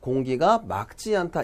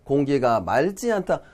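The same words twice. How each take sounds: First: 맑 ends in a K sound before 지. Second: 맑 ends in an L sound before 지. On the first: The speaker calls it right. "이렇게 얘기하셔야 돼요. 리을 기역 같은 경우는 ... 기역으로 발음한다" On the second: The speaker calls it wrong. "대부분 이렇게 발음합니다"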